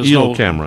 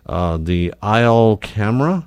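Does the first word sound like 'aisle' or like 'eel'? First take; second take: eel; aisle. First: The first word rhymes with 'feel'. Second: The first word rhymes with 'mile'.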